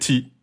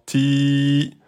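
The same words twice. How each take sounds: First: The vowel is held for one beat. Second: The vowel is held for two beats. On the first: "Si c'était que un temps" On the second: "là vous êtes sur du deux temps"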